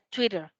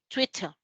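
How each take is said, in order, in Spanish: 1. La t del medio suena como una r rápida. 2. La t del medio suena como una t clara. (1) "en inglés americano esa T suena como una R" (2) "En británico la T sí se pronuncia en este caso"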